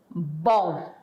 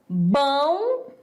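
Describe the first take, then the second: First: Every sound is in its standard form. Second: A sound is swapped or dropped in the word. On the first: It is the standard form. "em vez de" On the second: It reflects a social group's way of speaking. "A pessoa fala"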